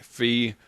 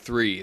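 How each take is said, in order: First: It begins with an f sound. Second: It begins with a th sound. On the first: "They say fee. They, they use a F" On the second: "They don't say three"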